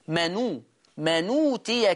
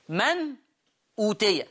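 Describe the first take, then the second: First: The glottal stop is dropped; n takes its vowel. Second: The glottal stop is pronounced after a silent n. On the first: "حذفت الهمزة، والضمة اللي عليها اتحطت على النون" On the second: "همزة ساكنة وبعدين أوتي الهمزة على الألف مضمومة"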